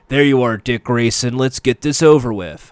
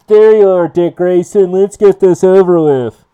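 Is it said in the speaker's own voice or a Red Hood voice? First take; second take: own voice; Red Hood. First: It is said without the Red Hood voice. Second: It is said in a put-on Red Hood voice.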